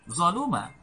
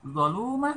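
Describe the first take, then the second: First: The second syllable has a short vowel. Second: The second syllable has a long vowel. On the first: "lu dibaca satu harakat" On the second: "lu berharakat dhammah kemudian diikuti waw sukun"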